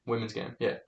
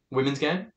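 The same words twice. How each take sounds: First: "Women's game" dropped low and much softer; muttered answer to his own question; quiet confirmation. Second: Game rising like a query, soft; puzzled repeat of the phrase; questioning echo. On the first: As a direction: say it under the breath, settling it. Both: Real, not acted.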